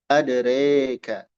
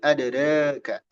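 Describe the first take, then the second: First: The vowel after r leans toward e. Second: The vowel after r is between a and e. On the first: "Ada imalah" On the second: "Ada taklil"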